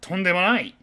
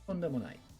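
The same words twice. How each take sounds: First: It is said forcefully, as an exclamation. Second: It is said softly and politely, without exclaiming. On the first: It is a strong refusal. "with kind of an exclamatory, absolutely fucking not" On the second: It politely declines thanks. "kind of as you're welcome"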